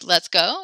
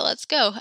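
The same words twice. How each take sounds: First: The voice rises at the end like a question. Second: The voice falls at the end like an answer. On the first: It asks whether to go. "you can ask like" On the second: It agrees to go. "or yeah"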